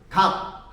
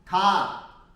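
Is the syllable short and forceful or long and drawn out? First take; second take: short; long. First: The syllable is spat out short and forcefully. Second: The syllable is drawn out long and smooth. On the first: The speaker calls it wrong. "이거를 강하게 각 하고 뱉으려니까 이게 잘 안 되는 거잖아요" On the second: The speaker calls it right. "이거를 길게 하면 돼"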